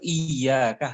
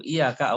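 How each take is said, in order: First: "Iyyaka" slower, with a long doubled y; with the shaddah. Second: "Iyyaka" with one short, light y; without the shaddah. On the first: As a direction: press and hold the double y in "Iyyaka". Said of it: "hanya kepada engkau". ("Iyyaka" dengan syaddah, ya ditekan dan ditahan) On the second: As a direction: run through the y of "Iyyaka" undoubled. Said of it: "awas engkau". ("Iyyaka" tanpa syaddah, ya pendek tidak ganda) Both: Shown as a demonstration.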